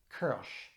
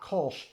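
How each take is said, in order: First: The vowel is a fronted 'er'-like sound. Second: The vowel is a plain rounded 'oh' sound. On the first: The speaker calls it right. "it's Kirsch" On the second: The speaker calls it wrong. "So it's not Kolsch"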